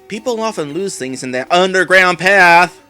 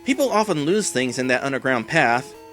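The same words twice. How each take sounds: First: It is said imitating the character's voice. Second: It is said in his own normal voice.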